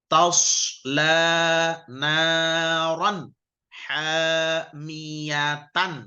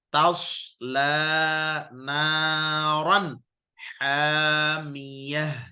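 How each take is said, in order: First: The last word ends with a full 'tan' syllable. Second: The last word ends in a soft 'h' sound. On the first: The reading continues without stopping. "Itu kalau terus" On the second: The reading stops at this word. "Kalau berhenti"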